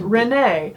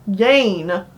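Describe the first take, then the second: First: The name begins with an R sound. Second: The name begins without any R sound. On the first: "that's the American way of saying it" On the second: "forget the R exists"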